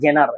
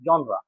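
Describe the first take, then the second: First: It starts with a hard j sound. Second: It starts with a soft zh sound. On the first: The speaker calls it wrong. "এটা জেনার এভাবে বলতাম। যাক নিজের ভুল নিজে স্বীকার করছি।" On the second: The speaker calls it right. "উচ্চারণটা জনরা, তখন আমি জনরা বলার চেষ্টা করি।"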